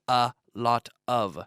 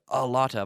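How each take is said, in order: First: The words are said separately and distinctly. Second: The words are run together smoothly. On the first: The speaker calls it wrong. "I don't say" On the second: The speaker calls it right. "Notice how we run these sounds together"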